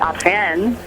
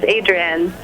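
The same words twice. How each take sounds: First: The name has a French pronunciation. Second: The name has an English pronunciation. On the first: "the French pronunciation" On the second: "my middle name is Adrienne"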